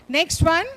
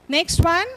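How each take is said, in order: Both takes have the same delivery.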